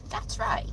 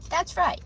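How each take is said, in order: First: Hushed repeat of "That's right."; whispered echo. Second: Said in the usual way. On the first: Shown as a demonstration. Streamer echoing herself in a whisper.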